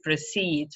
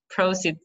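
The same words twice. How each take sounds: First: "proceed" as pro-CEED; last-syllable stress. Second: "Proceed" as PRO-ceed; first-syllable stress. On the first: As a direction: lean on the end of "proceed". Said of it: "The stress is on the last". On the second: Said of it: "on the first syllable". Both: Shown as a demonstration.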